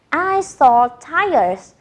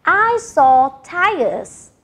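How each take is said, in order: First: Slow, even repeat of the model. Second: Each word spaced out slowly for learners; slow model sentence. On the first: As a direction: say it again slowly for the class. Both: Shown as a demonstration. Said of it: "we say".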